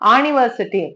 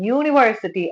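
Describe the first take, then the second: First: The word begins with a plain vowel sound. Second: The word begins with a y sound. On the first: The speaker calls it wrong. "அம்ப்ரெல்லா மாதிரி ஆனிவர்சிட்டின்னு சொல்றது இல்ல" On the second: The speaker calls it right. "யூனிவர்சிட்டி அப்படின்னு தான் சொல்றேன்"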